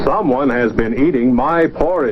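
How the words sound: It is said in a big, deep voice. The biggest bear is speaking. "big voice"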